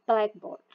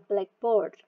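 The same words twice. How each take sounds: First: The stress is on the first part, black. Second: The stress is on the second part, board. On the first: A board used for writing on. "Kalau compound di first syllable" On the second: "stress ada di second part atau di the last syllable"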